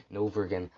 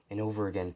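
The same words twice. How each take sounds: The two takes are said the same way.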